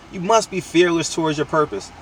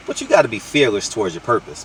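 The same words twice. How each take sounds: First: Must leaned on, falling to a softer close; stress on must. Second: Said in the usual way. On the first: Shown as a demonstration. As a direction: hit the word must, then drop it.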